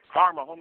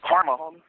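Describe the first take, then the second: First: Way higher, mocking lilt on homie; high, gloating singsong jab; sing-song taunt. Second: Said in the usual way. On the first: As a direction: tease him with a rising sing-song. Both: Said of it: "repeated taunt".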